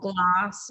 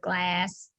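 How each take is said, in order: First: It is said with an Australian vowel. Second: It is said with an American vowel.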